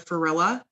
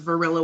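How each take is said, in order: First: The name begins with an F sound. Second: The name begins with a V sound. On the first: The speaker calls it wrong. "I u- used to say F for V" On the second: The speaker calls it right. "with a V"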